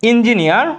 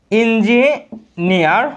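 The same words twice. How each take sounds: First: Said in the usual way. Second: ইঞ্জিনিয়ার very slow, broken into ইঞ্জি and নিয়ার; slow sounding-out. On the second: Shown as a demonstration. Teacher shows students the opening vowel, ইঞ্জিনিয়ার stretched slowly in parts. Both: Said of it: "এই যে ই উচ্চারণ আসে না".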